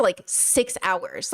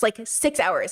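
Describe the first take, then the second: First: Like, six hours dragged very slowly and softer; drawn-out emphasis. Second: Said in the usual way. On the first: Shown as a demonstration.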